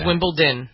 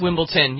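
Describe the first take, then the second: First: It is said with a D sound after the m. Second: It is said with a T sound after the m. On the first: The speaker calls it right. "It's Wimbledon with a D" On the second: The speaker calls it wrong. "you said, with a T"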